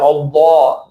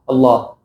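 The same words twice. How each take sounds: First: The L sound is exaggeratedly heavy and dark. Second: The L sound is only moderately heavy and dark. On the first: The speaker calls it wrong. "It shouldn't be very, very, you know, uh, heavy pronunciation" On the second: The speaker calls it right. "relatively heavy Allah"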